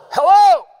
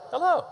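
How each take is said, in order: First: Loud, high-pitched bellowed HELLO; all-caps shout. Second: Said in the usual way. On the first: Shown as a demonstration. Preacher demonstrates all caps to congregation, shouting. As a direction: yell it like all-caps text. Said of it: "if you put it in all caps". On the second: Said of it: "Say it with me. ... Very simple".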